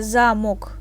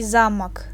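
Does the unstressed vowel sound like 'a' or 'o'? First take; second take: o; a. First: The unstressed vowel is said as a full 'o'. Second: The unstressed vowel is said like 'a'. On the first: The speaker calls it wrong. "we don't ha- don't uh, say" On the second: The speaker calls it right. "We say замок, ... It sounds like a"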